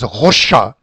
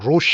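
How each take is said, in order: First: It is said with a French-style pronunciation. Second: It is said with an English pronunciation. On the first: The speaker calls it wrong. "a kind of a French pronunciation, which in Switzerland uh, people pronounce it as Rocha" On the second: The speaker calls it right. "we will stick to the English pronunciation"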